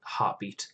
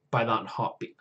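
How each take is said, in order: First: Breathy whispered repeat; whispered echo. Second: Said in the usual way. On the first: Real, not acted. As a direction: whisper the word to yourself. Whispered echo of own words.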